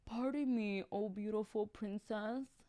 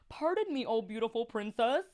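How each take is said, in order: First: It is said in a sad, pathetic voice. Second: It is said in a plain, neutral voice.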